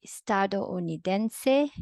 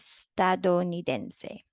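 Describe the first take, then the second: First: Estadounidense with do-u split into separate syllables; wrong way. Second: Estadounidense with ou glided as one syllable; correct way. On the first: Teacher contrasting the wrong version for students, Estadounidense split. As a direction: Estadounidense said syllable by syllable, ou broken apart. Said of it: "that's wrong". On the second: Teacher modeling the correct diphthong for students, estadounidense. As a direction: estadounidense with dou said as one beat. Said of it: "The correct one is". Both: Shown as a demonstration.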